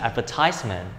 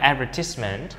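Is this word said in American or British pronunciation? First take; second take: American; British. First: The word is said with an American English pronunciation. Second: The word is said with a British English pronunciation. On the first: "còn Anh Mỹ sẽ là advertisement" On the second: "Cách đọc thứ nhất là Anh là advertisement"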